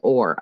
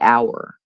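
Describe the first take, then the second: First: The word sounds like 'or'. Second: The word sounds like 'hour'. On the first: The speaker calls it wrong. "I don't say or" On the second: The speaker calls it right. "I say our"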